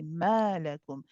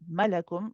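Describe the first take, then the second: First: The first vowel is stretched for two counts. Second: The first vowel is short, not stretched. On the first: The speaker calls it right. "we stretch it for two counts" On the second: The speaker calls it wrong. "we don't say malakum"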